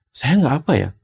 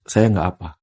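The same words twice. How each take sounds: First: "Saya nggak apa ya?" raised high with a doubtful questioning lilt; anxious question tune. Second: "Saya nggak apa," lower and falling like a firm command; firm statement tune. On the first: Guest contrasts the worried question form to show the intonation change. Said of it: "Ini kan hanya perubahan intonasi". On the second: Guest shows the question becoming a firm calming statement. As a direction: say "Saya nggak apa" as a settled order to yourself. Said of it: "Dia menjadi sebuah perintah". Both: Shown as a demonstration.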